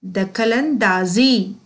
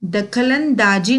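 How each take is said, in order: First: दखल अंदाजी slowly, with z in -daazi; correct pronunciation. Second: दखल अंदाजी ending in a j sound, -daaji; wrong pronunciation. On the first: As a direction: draw out अंदाजी with a buzzing z. (अंदाजी को धीरे, ज़ की आवाज़ से बोलना) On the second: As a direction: say अंदाजी with plain ज, not z. (अंदाजी को बिना नुक्ते वाले ज से बोलना) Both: Shown as a demonstration. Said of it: "दखल अंदाजी नहीं".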